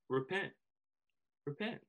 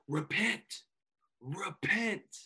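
First: It is said in a warm, gentle tone. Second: It is said in a shaming, condemning tone.

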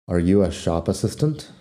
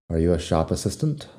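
The two takes are said the same way.

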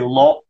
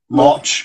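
First: The word ends in a hard k sound. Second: The word ends in a ch sound. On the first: "people would say lock" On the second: "or lotch"

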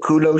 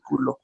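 First: Kulo is said the anglicized way. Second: Kulo is said with a Chicano accent.

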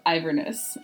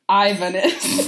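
First: It is said in the speaker's ordinary accent. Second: It is said in a put-on Scottish accent.

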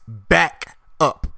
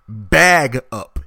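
First: The first word ends with a voiceless k sound. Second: The first word ends with a voiced g sound. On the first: The speaker calls it right. "It's back up. There is a C and a K at the end" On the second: The speaker calls it wrong. "It's not bag up"

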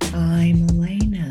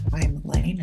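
First: It is said in a Dracula voice. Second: It is said in her normal voice.

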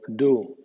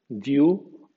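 First: The vowel is a plain oo sound. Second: The vowel begins with a y glide. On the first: This is the American pronunciation. "U en USA" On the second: This is the British pronunciation. "suenan IU en el Reino Unido"

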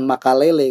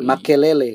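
First: The second vowel sounds like 'a'. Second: The second vowel sounds like 'e'. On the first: The speaker calls it wrong. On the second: The speaker calls it right.

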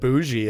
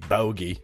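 First: The g is a soft zh-like sound. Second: The g is a hard stop sound. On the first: This is how others say it. "that's how someone said bougie" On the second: This is how it looks when read. "I like the hard G"

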